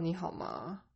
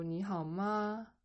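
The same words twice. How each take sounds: First: 你好吗 without raising the final 吗; no question lift. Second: 你好吗 drawn out, lifting on 吗; rising question intonation. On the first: Teacher shows what to avoid in questions, 你好吗 with no rise. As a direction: let 吗 drop at the end of 你好吗. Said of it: "Instead of". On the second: Teacher shows how questions sound, 你好吗 slowly rising at the end. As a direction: bring the pitch up at the end of 你好吗. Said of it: "bring up the intonation". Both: Shown as a demonstration.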